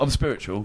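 It is said in a simple, matter-of-fact tone. The speaker sounds sincere and acceptable. The speaker calls it right. "If you go, I'm spiritual, that's all right"

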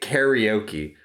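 It is said with an English pronunciation. "we say karaoke"

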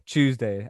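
It begins with a 'chew' sound. "British people pronounce Tuesday as, well, Tuesday as in C-H-E-W-S day"

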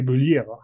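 The name is said in a French accent. The speaker calls it right. "I have to try with my French accent and say"

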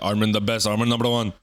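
It is said in a put-on Indian accent.

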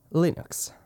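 The word is pronounced the English way. The speaker calls it wrong. "l'ho detto con questa pronuncia orribile inglese"

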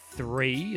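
It begins with a soft TH sound. "three is a soft"

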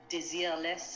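The name is said with a French accent.

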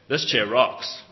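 It is said in a cool, enthusiastic way.

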